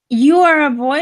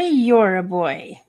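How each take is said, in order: First: You and are are said as separate words. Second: You and are merge into one syllable.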